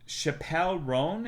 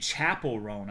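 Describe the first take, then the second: First: The first name sounds like shuh-pell. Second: The first name sounds like the word chapel. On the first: The speaker calls it wrong. "It's not like Dave" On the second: The speaker calls it right. "You're supposed to pronounce it Chapel"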